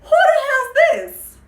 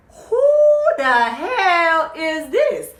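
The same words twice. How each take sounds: First: Laughing mock shriek. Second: High, loud, shocked shriek; outraged shriek at the stranger in the room; shrieked outrage. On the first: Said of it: "She's asking him". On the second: Retold or imitated. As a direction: scream it like the caught girlfriend. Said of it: "she's just like".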